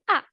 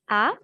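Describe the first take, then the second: First: The pitch falls sharply from high. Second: The pitch rises from mid to high. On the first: "Comme l'accent grave" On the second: "Le ton qui monte"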